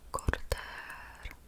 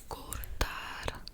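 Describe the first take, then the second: No difference in how they are said.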